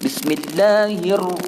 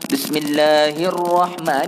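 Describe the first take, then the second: First: It is recited quickly. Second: It is recited at an ordinary pace. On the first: "cuma dicepatkan" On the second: "Kalau baca macam biasa jadi imam"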